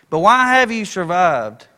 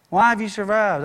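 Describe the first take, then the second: First: Slow, louder "why have you survived?"; slow emphatic question. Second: Said in the usual way. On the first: Acted. Preacher pressing the congregation, slow and louder "why have you survived?".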